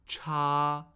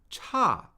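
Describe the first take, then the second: First: The pitch stays high and level. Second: The pitch falls sharply. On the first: "Cha, first tone" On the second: "Fourth tone"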